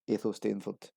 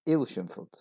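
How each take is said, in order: First: The name is said with four syllables. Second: The name is said with three syllables. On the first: The speaker calls it wrong. "four syllables as it's written" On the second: The speaker calls it right. "only three syllables"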